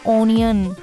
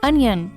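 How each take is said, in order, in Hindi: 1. पहला स्वर 'o' जैसा बोला जाता है। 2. पहला स्वर 'uh' जैसा बोला जाता है। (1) "it is not ऑनियन" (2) "it's अनियन"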